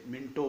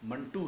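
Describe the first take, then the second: First: The first vowel is 'i', ending in 'o'. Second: The first vowel is 'a', ending in 'oo'. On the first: The speaker calls it wrong. "कुछ लोग इसे मिंटो बोलते हैं" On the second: The speaker calls it right. "इसका सही तलफ़ुज़ मंटू है"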